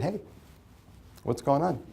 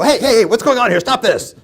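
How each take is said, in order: First: A calm, easy hey, not raised; casual and unbothered, hands in pockets; relaxed and calm. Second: Loud, high barking to stop a fight; angry intervening shout. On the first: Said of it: "hands in my pockets and my shoulders relaxed". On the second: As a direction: storm in and yell at them to stop. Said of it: "walk into your dispute and go". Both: Shown as a demonstration.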